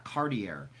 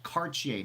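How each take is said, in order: First: "Cartier" said CAR-dee-er; anglicised mispronunciation. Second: "Cartier" said car-tee-AY; French pronunciation. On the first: Host showing the wrong name, anglicised mispronunciation. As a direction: end "Cartier" on a hard English -er. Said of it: "not Cartier". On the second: Host correcting how the name is said, French pronunciation. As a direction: end "Cartier" in an open -ay, French style. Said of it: "It's called Cartier, not Cartier". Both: Shown as a demonstration.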